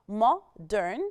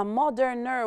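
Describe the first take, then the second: First: Said in the usual way. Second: Moderner said as a marked wrong form. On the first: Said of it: "the word modern". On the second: Shown as a demonstration. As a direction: say moderner as the mistake to avoid. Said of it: "لأ، this is wrong". (moderner منطوقة كصيغة خاطئة)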